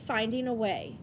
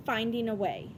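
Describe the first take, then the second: No difference in how they are said.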